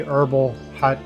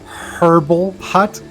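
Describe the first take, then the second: First: The h in herbal is silent. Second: The h in herbal is clearly pronounced. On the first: The speaker calls it right. "obviously herbal hut is a more correct pronunciation" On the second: The speaker calls it wrong. "just to make the h h double h sound"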